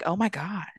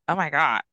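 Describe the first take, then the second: First: It sounds impressed and excited. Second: It sounds disgusted and appalled.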